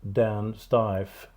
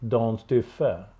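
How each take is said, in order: First: The surname is said with an American pronunciation. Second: The surname is said with a Swedish pronunciation. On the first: The speaker calls it wrong. "as you Americans says" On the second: The speaker calls it right. "but Dan Stiffe"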